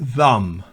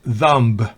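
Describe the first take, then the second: First: The b sound is silent. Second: The b sound is pronounced. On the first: The speaker calls it right. "B es muda en thumb" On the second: The speaker calls it wrong. "no es thumb"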